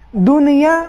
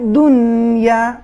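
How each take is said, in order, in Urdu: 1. ن پر اضافی حرف علت یا قلقلہ آتا ہے۔ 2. ن ساکن رہتا ہے اور اس پر کوئی اضافی حرف علت نہیں آتا۔ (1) "دنیا یہ صحیح نہیں ہے" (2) "نون بالکل ساکن رہے گا"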